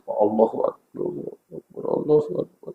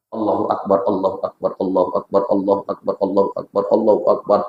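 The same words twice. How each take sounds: First: Breaking into a soft, near-voiceless sob on Allahu Akbar; tearful dhikr. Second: Said in the usual way. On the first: Shown as a demonstration. Preacher shows a worshipper weeping softly in dhikr. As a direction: let the praise dissolve into quiet weeping. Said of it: "kalau khusyuk nangis dia". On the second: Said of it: "Makanya orang berzikir tuh".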